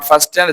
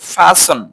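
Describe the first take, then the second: First: The t sound is pronounced. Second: The t sound is silent. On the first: The speaker calls it wrong. "Not ফাস্টেন" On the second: The speaker calls it right. "হচ্ছে ফাসন"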